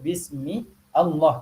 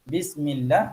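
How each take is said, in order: First: A glottal stop separates the two words. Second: The words run together without a glottal stop. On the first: This follows the original form of the word. "Kalau hamzah qata' maka kita kena sebut" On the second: This is the usual form, from frequent use. "dia telah menjadi hamzah wasal"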